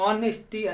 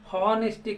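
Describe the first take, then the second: First: The word starts with a vowel, no h sound. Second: The word starts with an audible h sound. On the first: The speaker calls it right. "ఆనెస్టీ అని pronounce చేయాలి" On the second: The speaker calls it wrong. "హానెస్టీ కాదండి"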